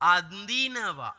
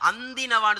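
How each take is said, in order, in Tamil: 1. மூக்கொலி ரொம்ப லேசா தொட்டு மட்டும் போகணும். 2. மூக்கொலி நல்லா அழுத்தி முழுசா சொல்லப்படுது. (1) "சும்மா பட்டும் படாமையும் போகணும்" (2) "அந்தினவான்னு சொல்லக்கூடாது. அதை அழுத்தக்கூடாது"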